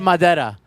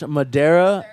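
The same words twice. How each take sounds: First: The name is said with a Spanish accent. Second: The name is said with an English accent. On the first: It sounds ordinary and confusing. "if I said Madeira, you'd be like, what" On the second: It sounds pretty cool. "when someone pronounces it in English"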